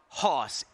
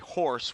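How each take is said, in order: First: It is said without an r sound. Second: It is said with an r sound.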